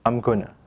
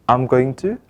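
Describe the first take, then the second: First: The words are reduced and run together quickly. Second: Each word is said fully and separately.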